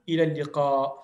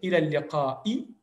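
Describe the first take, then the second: First: The last word ends on a silent consonant. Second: The last word ends with a short vowel. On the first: "on va toujours dire ila liqa" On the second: "on va écrire ila liqa'i"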